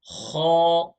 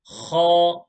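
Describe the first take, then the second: First: The sound is said heavy, with a full mouth. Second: The same.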